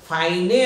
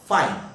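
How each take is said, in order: First: A vowel sound follows the final n. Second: The word ends on the n sound. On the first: The speaker calls it wrong. "आपण फाईने असं म्हणू शकत नाही" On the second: The speaker calls it right. "ह्याला फाईन"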